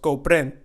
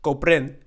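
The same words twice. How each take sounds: No difference in how they are said.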